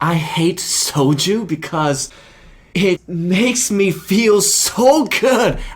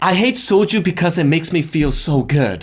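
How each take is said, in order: First: There is a pause after the word because. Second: There is no pause after the word because. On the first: The speaker calls it right. "the pause after the word because is extremely important" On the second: The speaker calls it wrong. "you can't be like, ... The impact is just not the same"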